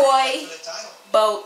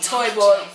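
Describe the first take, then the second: First: The words are said slowly and separately. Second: The words are said quickly together.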